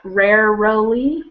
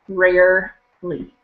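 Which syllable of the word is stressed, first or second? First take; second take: second; first. First: The stress is on the second syllable. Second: The stress is on the first syllable. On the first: The speaker calls it wrong. "a little too much stress on the second syllable" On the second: The speaker calls it right. "it should be rarely"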